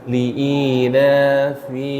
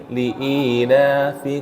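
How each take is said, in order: The two takes are said the same way.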